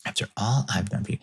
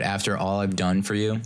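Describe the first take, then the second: First: Quick, light mock guilt trip; playful fast after all I've done for you; lighthearted. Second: Said in the usual way. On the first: Shown as a demonstration. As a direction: toss it off quick and teasing. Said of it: "I kinda say that in a very, like, lighthearted way". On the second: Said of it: "quote unquote".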